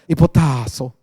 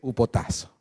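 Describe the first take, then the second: First: The word begins with an 'hee' sound. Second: The word begins with an 'oo' sound. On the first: This is how the translation voice said it. "así me hablaba, hipotazo" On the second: This is how the speaker chooses to say it. "le voy a decir upotazo"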